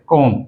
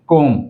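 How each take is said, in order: Both takes have the same delivery.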